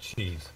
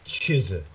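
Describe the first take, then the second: First: It is said with an English accent. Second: It is said with a Korean accent. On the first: "instead of cheese" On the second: "a Korean way of saying a English word"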